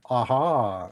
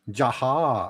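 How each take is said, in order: First: The name begins without a J sound. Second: The name begins with a J sound. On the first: "I call it aha" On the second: "it's with a J"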